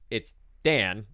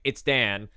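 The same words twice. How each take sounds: First: It is said plainly, words kept apart. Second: It is said in a Jersey accent, run together.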